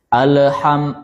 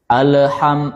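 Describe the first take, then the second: First: The L is released with a slight bounce. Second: The L is released with a slight bounce.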